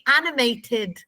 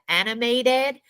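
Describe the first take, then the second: First: The T sound is clearly pronounced. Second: The T sound is dropped. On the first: This is how British people say it. The speaker calls it right. "We pronounce our T's" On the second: This is how Americans say it. The speaker calls it wrong. "there's no T there"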